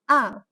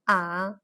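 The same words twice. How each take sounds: First: The pitch drops sharply and stops short. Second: The pitch dips low, then rises again. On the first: "The fourth tone, also known as a descent tone" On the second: "The third tone, also known as inflection tone"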